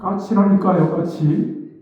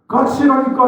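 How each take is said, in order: First: It is said with muttered irritation. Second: It is said in a sudden angry outburst.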